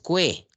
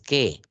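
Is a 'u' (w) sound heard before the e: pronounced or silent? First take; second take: pronounced; silent. First: A 'w' sound is heard before the e. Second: No 'w' sound is heard before the e. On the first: The speaker calls it wrong. "tú no dices cue" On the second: The speaker calls it right. "tú dices que"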